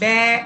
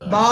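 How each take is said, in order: First: The mouth is narrow, giving a 'bya' sound. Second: The mouth opens wide, giving an open 'baa'. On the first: "এক ইঞ্চি কম যদি হয় তাহলে দেখেন ব্যা" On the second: "এক ইঞ্চির বেশি যদি হয়ে যায় দেখেন বা"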